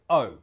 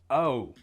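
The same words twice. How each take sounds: First: The vowel is short and lightly made. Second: The vowel is long and overpronounced. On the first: The speaker calls it right. "It should sound like O" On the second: The speaker calls it wrong. "Americans tend to overpronounce it like O"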